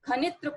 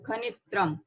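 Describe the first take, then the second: First: The word ends without any final m sound. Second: The word ends with a clear final m sound. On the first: The speaker calls it wrong. "खनित्र पढ़ेंगे तो गलत है" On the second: The speaker calls it right. "तो sound के अनुसार हम आवाज निकालेंगे खनित्रम"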